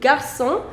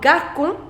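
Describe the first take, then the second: First: The c sounds like an s. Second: The c sounds like a k. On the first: "C O with accent c'est dit is son" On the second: "C O is co"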